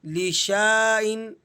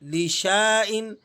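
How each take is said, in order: First: A long 'aa' vowel follows the 'sh'. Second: The same.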